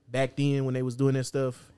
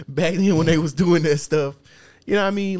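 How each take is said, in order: First: Said in the usual way. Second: Higher and louder, hammed-up storyteller; mock old-timer voice. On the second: Laughing at the old days, hammed-up storyteller voice. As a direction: ham up the old days like a preacher.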